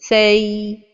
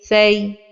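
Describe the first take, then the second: First: The vowel is stretched out far too long. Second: The vowel is full and of normal length. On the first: The speaker calls it wrong. "donner beaucoup de temps à la lettre ligne comme ceci" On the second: The speaker calls it right. "la prononciation correcte est"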